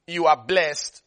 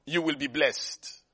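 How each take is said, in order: First: "are" leaned on, present tense stressed; "You ARE blessed" with weight on "are". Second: "will be" dropped and quiet as the rejected version; "will be" tossed off low and soft; the wrong tense, softer. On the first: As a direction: hit "are" to show it's already done. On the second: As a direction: say "You will be blessed" softly, throwaway. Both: Shown as a demonstration.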